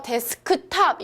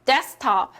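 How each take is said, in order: First: "데스크탑" with the 크 syllable sounded; unreduced K. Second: "데스크탑" as des-top, no K; middle sound dropped. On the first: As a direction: keep every syllable in "데스크탑". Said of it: "일어나요". ("데스크탑"을 크까지 또박또박) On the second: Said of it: "중간음을 제외해서". ("데스크탑"을 중간음 없이 데스탑으로) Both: Shown as a demonstration.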